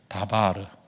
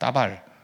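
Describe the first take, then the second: First: It is said gently with a soft start. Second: It is said quickly with a tense, harsh start. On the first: The speaker calls it right. "이렇게 부드럽게 발음하세요" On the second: The speaker calls it wrong. "빠르게 말하면 따발이고"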